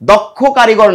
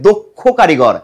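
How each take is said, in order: First: The first vowel is an open aw sound. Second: The first vowel is a closed oh sound. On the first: The speaker calls it wrong. "দক্ষ কারিগর নয়" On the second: The speaker calls it right. "হবে দক্ষ কারিগর"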